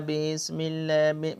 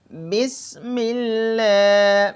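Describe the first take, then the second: First: بسم اللہ mumbled softly, with the لل cut short; the error in بسم اللہ; wrong pronunciation. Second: بسم اللہ slow, the لل doubled and clear; the proper بسم اللہ; correct basmala. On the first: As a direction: demo the careless بسم اللہ. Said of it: "ایسے نہیں". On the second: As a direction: recite بسم اللہ with a full open voice. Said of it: "بریک آواز سے". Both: Shown as a demonstration.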